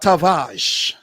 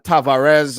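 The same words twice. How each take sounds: First: The name is said with a Portuguese accent. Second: The name is said with a plain English accent. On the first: The speaker calls it right. "you want to have that Portuguese flavor" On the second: The speaker calls it wrong. "I used to say"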